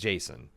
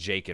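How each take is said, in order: First: The name has an s sound in the middle. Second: The name has a k sound in the middle. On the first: The speaker calls it right. "I guess it's Jason" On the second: The speaker calls it wrong. "I always pronounced it Jakin when I was reading it growing up"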